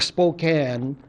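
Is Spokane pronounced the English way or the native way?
native. The name is said with a non-English pronunciation. The speaker calls it wrong. "I'm pronouncing it the wrong language"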